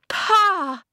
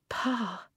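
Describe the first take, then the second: First: It is called out loudly. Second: It is said in a soft whisper.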